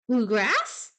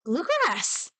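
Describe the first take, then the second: First: BLUEGRASS with a sharp rising question. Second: BLUEGRASS exclaimed high, falling at the end; sudden realization. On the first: Streamer puzzling over a word aloud, questioning Bluegrass with a rise. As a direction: ask "Bluegrass" with the pitch shooting up at the end. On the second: Streamer solving the puzzle, exclaiming Bluegrass in sudden realization. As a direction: cry "Bluegrass" like it finally clicks. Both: Pretend.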